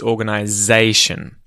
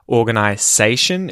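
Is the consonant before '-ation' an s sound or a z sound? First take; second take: z sound; s sound. First: The consonant before -ation sounds like z. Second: The consonant before -ation sounds like s. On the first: The speaker calls it right. "it actually sounds like a Z sound" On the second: The speaker calls it wrong. "Not organization"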